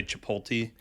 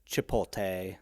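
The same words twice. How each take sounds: First: "Chipotle" ending in tee, chih-POHL-tee; mispronounced ending. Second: "Chipotle" ending in tay, chih-pol-TAY; variant pronunciation. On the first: Friend mocking how some people say it, tee ending. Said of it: "the people who say". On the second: Host quoting people he knew, tay ending. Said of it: "some people that said". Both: Retold or imitated.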